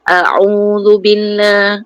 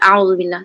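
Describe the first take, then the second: First: The opening vowels are split as separate 'a-u'. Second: The opening vowels glide together as one 'au'. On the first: The speaker calls it right. "Sebenarnya a'udzubillah a'u okey betulkan" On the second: The speaker calls it wrong. "baca auzubillah pun ada yang salah"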